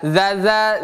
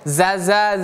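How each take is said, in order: First: It starts with a voiced 'th' sound. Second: It starts with a plain 'z' sound. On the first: "Yang satu zal" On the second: "Yang satu zai"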